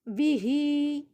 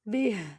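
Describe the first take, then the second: First: The word ends with a short vowel after h. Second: The word ends on a bare h consonant. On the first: The reading continues without stopping. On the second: The reader stops on this word.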